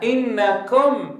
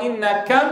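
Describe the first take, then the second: First: "إنكم" with a slow, drawn-out, deliberate kum; slow, careful. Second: "إنكم" ending as kam, u opened toward a; wrong fatha-like damma. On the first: المعلم يشرح: "إنكم" بنطق بطيء متأنٍ. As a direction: model "إنكم" with a full rounded u. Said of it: "الضمة بالفتحة". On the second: المعلم يقلد الخطأ: "إنكم" بضمة مفتوحة. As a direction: mimic "إنكم" with an a in place of u. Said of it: "فله قال". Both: Shown as a demonstration.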